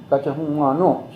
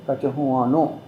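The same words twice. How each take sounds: First: Gachahumano said kah-tah-hoo-ah-no; Mohawk word. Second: Gachahumano said kah-tah-hoo-ah-no, rising at the end; Mohawk word. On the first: Elder teaching the Mohawk for big meeting, careful. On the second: Elder repeating the Mohawk word Gachahumano, rising. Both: Shown as a demonstration. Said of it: "that's how you say big meeting".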